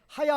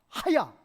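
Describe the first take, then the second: First: It begins with a plain, soft h sound. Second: It begins with a rough, throaty ch sound. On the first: It means the verb to be. The speaker calls it wrong. "그냥 하야라고 읽으면 히브리어의 하야는 ... 비동사예요" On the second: It means to live. The speaker calls it right. "이 하가 ch 발음이에요"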